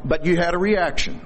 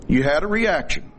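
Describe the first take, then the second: First: "you" given the weight, rest falls away; stress on you. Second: "reaction" given the weight, falling to the end; stress on reaction. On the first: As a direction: point at them on "you". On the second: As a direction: land the point on "reaction". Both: Shown as a demonstration.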